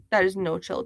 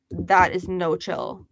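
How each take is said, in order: First: Said in the usual way. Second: Every word of "that is no chill" drawn out and weighted; slow emphatic. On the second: Real, not acted. Streamer scolding a rude chat viewer, slow and emphatic. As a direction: lean hard on "that is no chill", slowly.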